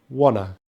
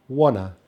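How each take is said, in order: The two takes are said the same way.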